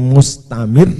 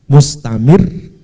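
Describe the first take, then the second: Both takes have the same delivery.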